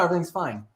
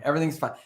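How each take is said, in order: First: It is said in a relaxed, sincere tone. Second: It is said in a tense, annoyed tone. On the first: Things really are fine. "And then there's like" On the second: Things are actually not fine. "That means everything is so not fine"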